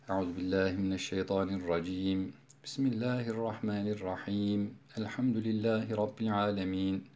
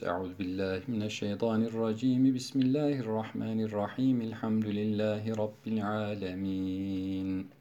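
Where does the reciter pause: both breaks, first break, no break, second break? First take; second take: both breaks; no break. First: There is a pause after each of the phrases. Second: All three phrases run together without any pause. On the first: "Sure başındaki vecihler kat'ul küldü. Her bir arada nefes aldık" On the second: "Dördüncü vecih vaslül kül, hepsinde geçiş yapıyoruz"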